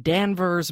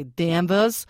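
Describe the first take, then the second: First: Said in the usual way. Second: Danvers drawn out in a Massachusetts accent. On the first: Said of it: "or should I say". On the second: Shown as a demonstration. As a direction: say Danvers like a Massachusetts local, stretched slowly. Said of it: "How was my Massachusetts accent?".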